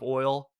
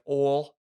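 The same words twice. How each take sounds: First: It is said with a plain, neutral accent. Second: It is said with a strong Texan accent. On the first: "instead of oil" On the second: "a big famous one is people that say like oil"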